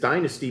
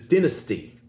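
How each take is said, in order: First: It is said with an ordinary American pronunciation. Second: It is said with an Australian-style pronunciation.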